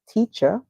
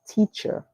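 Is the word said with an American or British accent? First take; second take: British; American. First: It ends in a soft uh vowel, no r. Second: It ends with a clear er sound. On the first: "The British would say teacher" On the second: "the Americans would say teacher"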